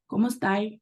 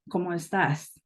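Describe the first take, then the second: First: Chilean Spanish, with word endings cut short. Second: Standard Spain Spanish, every word fully pronounced. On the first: This is how people in Chile say it. "di sini mereka suka memotong-motong katanya" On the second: This is the normal Spanish greeting. "yang normal nih ya, bahasa Spanyolnya negara Spanyol"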